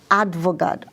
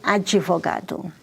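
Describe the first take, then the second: First: The d goes straight into the v. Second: An extra vowel comes between d and v. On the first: "instead of saying a lawyer is advogado" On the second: "in Brazil, we say advogado"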